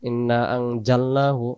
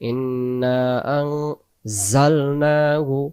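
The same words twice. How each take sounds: First: The middle consonant is a hard j sound. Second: The middle consonant is a soft z-like sound. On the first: The speaker calls it wrong. "সরাসরি জিমে চলে গেছে" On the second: The speaker calls it right. "জাল যে বলতেছি সে অক্ষরটা এই অক্ষরটা দিয়ে আছে"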